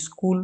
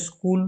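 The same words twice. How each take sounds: First: স্কুল with a short i before it, "iskul"; added initial i. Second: Said in the usual way. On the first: Shown as a demonstration. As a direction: put an i sound in front of স্কুল. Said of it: "একটা বাড়তি হস্যই যুক্ত হয়ে গেছে". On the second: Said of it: "স্কুলের সাথে একটা বাড়তি হস্যই".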